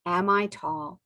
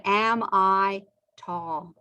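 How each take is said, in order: First: "Am I tall?" with the weight on "I" and a rise at the end; stress on I. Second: "Am I tall?" said slowly, with the weight on "Am"; slow model question. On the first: Teacher repeating the question for the class, stress on "I" rising. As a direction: push "I" in "Am I tall?" and lift the end. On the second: Teacher drilling "Am I tall?" for the class, slow with stress on "Am". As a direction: lean on "Am" in "Am I tall?" and take it slow. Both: Shown as a demonstration. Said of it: "Let's look at".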